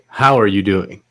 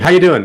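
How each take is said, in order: First: A warm, sincere, genuinely caring question. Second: A quick, casual, perfunctory greeting.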